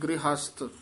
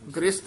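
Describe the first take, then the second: First: An h sound is heard after the r. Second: No h sound is heard after the r. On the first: The speaker calls it right. "ਹਾਹਾ ਵੀ ਵਿੱਚ ਹੈ ਨਾ" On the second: The speaker calls it wrong. "ਨਹੀਂ ਕਹਿਣਾ"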